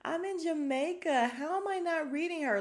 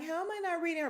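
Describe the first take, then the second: First: Much higher, louder mock-whiny voice; mocking Sonya. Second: Much higher mock-whiny voice; mocking Sonya. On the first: Host mocking Sonya's confessional, higher, louder whiny voice. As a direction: make her sound clueless and indignant. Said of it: "Sonya's like". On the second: Host mimicking Sonya's question again, high mock whine. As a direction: repeat it like a clueless complainer. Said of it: "And she's like".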